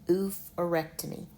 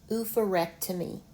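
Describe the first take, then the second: No difference in how they are said.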